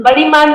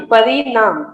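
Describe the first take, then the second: First: परिमाण with मा before the final ण; higher-pitched परिमाण, ending in -माण; wrong pronunciation. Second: परिणाम with drawn-out ना and closing म; correct pronunciation. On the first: Teacher quoting the student's slip, परिमाण said with -माण. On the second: Teacher giving the right word after the slip, clearly modelled परिणाम. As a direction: stretch परिणाम, falling at the end. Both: Shown as a demonstration. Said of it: "परिमाण नहीं".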